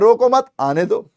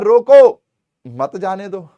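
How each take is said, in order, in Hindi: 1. 'mat' के बाद विराम है। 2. 'roko' के बाद विराम है।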